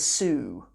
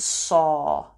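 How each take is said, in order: First: The vowel is a long 'oo' sound. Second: The vowel is a long 'o' sound. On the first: The speaker calls it wrong. "I thought it was Sue, because we pronounce double O together as oo" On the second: The speaker calls it right. "the O sound is an O sound. So it's saw"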